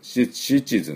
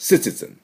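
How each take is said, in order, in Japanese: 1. この単語は 'sh' の音で始まります。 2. この単語は 's' の音で始まります。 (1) "日本でcitizen、citizen って言いますが" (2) "す、citizen、citizen って言います"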